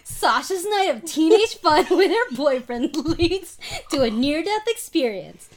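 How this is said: It is read in a dramatic announcer voice.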